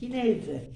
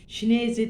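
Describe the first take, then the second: First: The word begins with a soft h-like sound. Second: The word begins with a sh sound. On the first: The speaker calls it right. "Hineze diye okuyorum" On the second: The speaker calls it wrong. "Şineze diye okuyorlar. Hayır"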